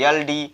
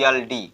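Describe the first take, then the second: The two takes are said the same way.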